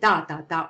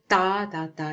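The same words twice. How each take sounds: First: The syllables are said quickly and sharply. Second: The syllables are said slowly. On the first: "I'm talking like that" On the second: "or it can be more slow"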